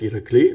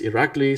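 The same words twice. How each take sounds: First: The stress is on the last syllable. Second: The stress is on the second syllable. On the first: This is how it would be said in Bulgarian. "like on the on the last syllable" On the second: This is the pronunciation a chatbot gave. "so the emphasis is on the on the second syllable"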